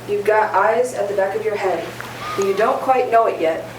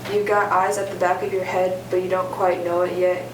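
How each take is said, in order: First: It is read theatrically, with more expression. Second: It is read plainly, with little expression.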